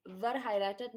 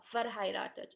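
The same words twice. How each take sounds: First: "verheiratet" with an English v at the start; English V sound. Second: "verheiratet" with an f at the start; "verheiratet" starting like "fair", no v sound; German V as F. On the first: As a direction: say "verheiratet" wrongly, opening on a voiced v. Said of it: "ये English में स- की तरह नहीं होगा". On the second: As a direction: say "verheiratet" opening on a clear f. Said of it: "word के शुरू में वो फा". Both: Shown as a demonstration.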